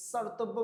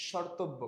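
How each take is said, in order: First: স্বর্তব্য with a hissed s, "sortobbo"; wrong pronunciation. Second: স্বর্তব্য with sh, "shortobbo"; correct pronunciation. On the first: Teacher citing what you don't say, স্বর্তব্য as "sortobbo". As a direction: start স্বর্তব্য on a sharp s instead of sh. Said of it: "বলেন না". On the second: Teacher answering what you say, স্বর্তব্য as "shortobbo". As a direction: start স্বর্তব্য on a sh sound. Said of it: "কি বলেন". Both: Shown as a demonstration.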